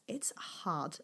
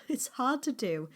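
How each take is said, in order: First: Much softer whispered It's hard; quiet admission. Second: It's hard to do said with a rueful laugh. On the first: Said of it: "small business journey is difficult". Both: Real, not acted.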